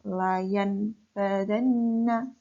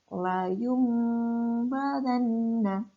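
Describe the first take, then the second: First: The nasal before the b stays an n. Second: The nasal before the b becomes an m. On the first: The speaker calls it wrong. "bacanya bukan layan badanna" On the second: The speaker calls it right. "Nun sukun bertemu dengan ba, dibaca layum badanna"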